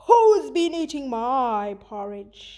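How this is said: The voice is low and growling. The speaker is hungry and angry. "he growled"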